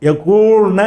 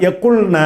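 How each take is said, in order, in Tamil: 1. நடுவில் உள்ள உயிரெழுத்து நீண்டது. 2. நடுவில் உள்ள உயிரெழுத்து குறுகியது. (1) "எக்கூல்ன என்று சொல்லாமல்" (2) "இந்த வாவை காலி பண்ணிடணும்"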